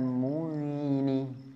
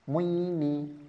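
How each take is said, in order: First: The vowel glide is drawn out long. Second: The vowel glide is pulled short and quick. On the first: The speaker calls it wrong. "Bukan muini" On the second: The speaker calls it right. "Ingat linnya, tarikannya cepat"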